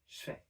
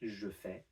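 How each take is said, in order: First: Je begins with a voiceless sh sound. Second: Je begins with a voiced zh sound. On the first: "devoice the j and make it into a sh sound" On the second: "instead of"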